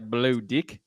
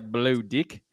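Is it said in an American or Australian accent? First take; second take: Australian; Australian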